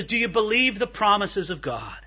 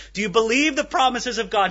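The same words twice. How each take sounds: First: Said in the usual way. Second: A touch louder, pressing "the promises of God"; emphatic repeat of the question. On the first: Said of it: "He says". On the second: Retold or imitated. Preacher repeating Evan Roberts' question to the crowd, a bit more emphatic. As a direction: ask it again, leaning on "promises". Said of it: "And Evan Roberts is in their midst".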